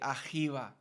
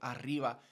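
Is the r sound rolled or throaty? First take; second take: throaty; rolled. First: The r is a throaty, h-like sound. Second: The r is a rolled trill. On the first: This is how some rural speakers say it. "they'll say arriba" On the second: This is the usual way to say it. "instead of arriba"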